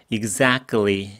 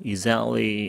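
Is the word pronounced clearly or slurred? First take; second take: clearly; slurred. First: Every syllable is pronounced clearly and fully. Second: The syllables are slightly slurred together. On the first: "clearly라고 선명하게" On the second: "exactly 이렇게 약간 뭉갰습니다"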